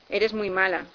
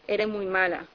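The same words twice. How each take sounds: First: The s at the end of eres is pronounced. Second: The s at the end of eres is dropped. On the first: "Me miró a los ojos diciéndome" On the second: "pero sonaba: ... La gente en Nicaragua no pronuncia la S"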